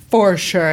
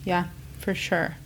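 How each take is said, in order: First: Laid-back surfer dude drawl; a hint of a chill surfer. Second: Said in the usual way. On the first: Real, not acted. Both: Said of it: "I just sounded like a surfer dude".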